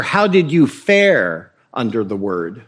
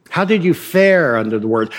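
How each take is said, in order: First: Lower, slow, a hint of a solemn Puritan; lightly voiced churchgoer asking gravely. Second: Said in the usual way. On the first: One Puritan asking another after church, lightly voiced and solemn. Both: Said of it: "The Puritan would ask one another".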